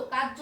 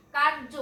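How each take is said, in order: First: কার্য as "kaj-jo", without any r; r dropped, j doubled. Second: কার্য as "kar-jo", r clearly heard; r sounded. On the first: Teacher showing the mistake, কার্য said "kaj-jo". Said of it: "কার্য হলে দুইবার জ উচ্চারণ হচ্ছে". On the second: Teacher showing the correct form, r sounded in কার্য. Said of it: "এখানে র উচ্চারণ হবে". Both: Shown as a demonstration.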